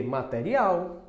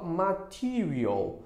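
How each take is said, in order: First: Slow "material" as ma-te-ri-AU; Portuguese pronunciation. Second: Slow "material" as ma-TEE-ree-ul; English pronunciation. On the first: Teacher giving the matching word, slow Portuguese pronunciation. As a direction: say "material" in Portuguese, open e, stressed last syllable. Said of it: "Vai ser o quê?". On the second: Teacher modelling how you say it, slow English pronunciation. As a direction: draw out "material", stressed on TEE. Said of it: "só que você fala". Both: Shown as a demonstration.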